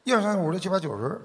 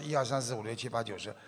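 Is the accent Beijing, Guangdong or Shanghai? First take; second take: Beijing; Shanghai. First: It is counted in a Beijing accent. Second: It is counted in a Shanghai accent.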